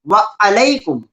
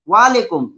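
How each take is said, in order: First: The two words are kept apart clearly. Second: The two words are merged into one. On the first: The speaker calls it right. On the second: The speaker calls it wrong.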